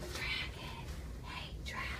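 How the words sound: It is whispered very softly.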